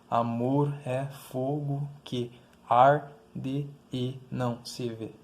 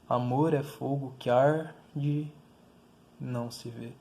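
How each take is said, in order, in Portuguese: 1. Cada sílaba é mantida separada, sem fusão de vogais. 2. Vogais vizinhas se fundem em sílabas únicas entre as palavras. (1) "a gente não fala assim" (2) "A gente fala"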